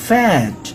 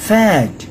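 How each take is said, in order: Both takes have the same delivery.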